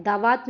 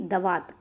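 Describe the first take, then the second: First: दावात with long aa in the first syllable; mistaken long vowel. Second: दवात with short da, lower pitch; correct short vowel. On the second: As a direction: say दवात as duh-VAAT. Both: Shown as a demonstration. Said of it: "दावात नहीं".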